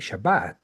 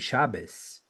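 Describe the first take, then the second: First: It uses an Israeli Sephardic Hebrew pronunciation. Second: It uses an Ashkenazic Hebrew pronunciation. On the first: "they say Shabbat" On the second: "they will never say Shabbos"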